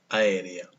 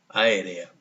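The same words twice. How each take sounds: First: The first two vowels are merged into one syllable. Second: The first two vowels are merged into one syllable.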